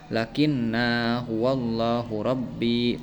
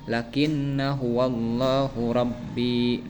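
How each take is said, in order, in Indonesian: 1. Vokal setelah n dibaca panjang. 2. Vokal setelah n dibaca pendek.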